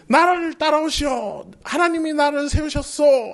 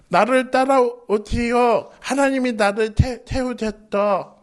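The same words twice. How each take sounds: First: Grand leader voice. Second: Slow, halting, stammer on 태-, 태우셨다; stammering leader. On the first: How a leader should address the people, stately and grand. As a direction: proclaim 나를 따라오시오 like a confident leader. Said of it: "멋지게 말해야 되는데". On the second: Moses failing to lead the people, slow and stammering. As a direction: falter and stumble through 나를 따라오시오. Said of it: "이러면은 못하잖아". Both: Shown as a demonstration.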